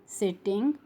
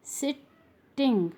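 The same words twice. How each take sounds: First: Said in the usual way. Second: "Sitting" broken into sit, ting; split syllables. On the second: Shown as a demonstration. Teacher showing the ing sound, word split in syllables. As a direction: pause before the ending of "Sitting". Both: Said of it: "ing sound".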